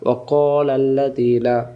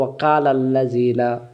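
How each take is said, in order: First: The k sound is thick and heavy. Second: The k sound is thin and light. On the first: The speaker calls it right. "না" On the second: The speaker calls it wrong. "আমরা অনেকে বলি"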